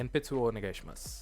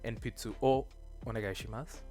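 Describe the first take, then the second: First: It runs together with no pause after o. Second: There is a pause after the particle o. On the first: "if you're not going to pause, then I don't think it's unnatural to slur it together" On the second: "if you're going to pause in the middle of this sentence"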